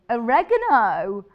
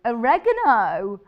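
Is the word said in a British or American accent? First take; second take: American; American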